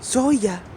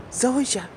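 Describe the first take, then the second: First: "Zoya" said with a y sound, ZOY-ah, in a higher pitch; Zoya pronunciation. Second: "Zoja" said with a zh sound, ZOH-zhah; Zoja pronunciation. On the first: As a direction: say "Zoya" like the character does. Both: Retold or imitated. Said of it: "he pronounces".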